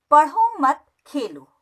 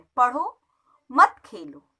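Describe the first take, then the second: First: पढ़ो मत joined and slow, then Khelo apart; pause after मत. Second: पढ़ो rising, a short break, then मत खेलो low; pause after पढ़ो. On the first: Teacher repeats the second sentence for pupils, pause after मत. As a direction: run पढ़ो into मत, break briefly, then say Khelo. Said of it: "पढ़ना बंद करके खेल लो।". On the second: Teacher repeats the first sentence for pupils, pause after पढ़ो. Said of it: "इसका अर्थ है खेलना बंद करके". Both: Shown as a demonstration.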